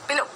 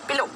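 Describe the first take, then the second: No difference in how they are said.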